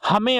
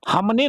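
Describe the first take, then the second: First: हमें said with a nasal e ending and no ne; correct form hamen. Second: हमने said with a clear ne ending; wrong form hamne. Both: Shown as a demonstration. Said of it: "हमने नहीं होता है".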